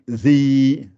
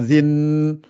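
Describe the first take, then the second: First: The syllable ends without an n sound. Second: The syllable ends with an n sound. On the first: The speaker calls it right. "le nun disparaît" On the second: The speaker calls it wrong. "pas zin"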